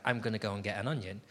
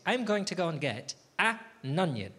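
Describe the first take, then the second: First: "I'm gonna go and get an onion" rushed, with "an onion" run together as "anunion"; lazy quick mumble of "an onion"; slurred fast version. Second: "I'm going to go and get an onion" with "going to" said in full and a pause before "onion"; deliberately careful "an ... onion"; careful full version. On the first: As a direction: gabble it quickly so "an onion" blurs into one word. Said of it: "never been able to say things like". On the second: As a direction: say every word out, then a small break before "onion". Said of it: "What I'm saying is". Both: Shown as a demonstration.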